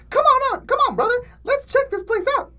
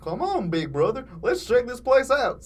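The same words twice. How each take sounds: First: Put-on squeaky high kid voice; wrong take, high and squeaky; squeaky high cartoon voice. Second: Retake as a slow dopey Goofy. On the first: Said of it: "Oh, wait, no". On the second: Acted. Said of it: "said Mugman".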